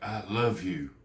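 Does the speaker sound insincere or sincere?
sincere. It sounds warm and sincere. The speaker truly means it. The speaker calls it right. "it sounds like I mean it"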